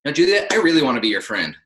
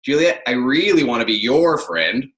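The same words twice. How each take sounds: First: Brisk, upbeat "I really wanna be your friend"; demonstrated intonation. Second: Stretched, emphatic "really", weighted "your friend"; contrasting intonation. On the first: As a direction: say "really" lightly, moving straight through to "friend". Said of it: "how you say it that matters". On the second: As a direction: lean hard on "really" and "your". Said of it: "Or I can say". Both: Shown as a demonstration.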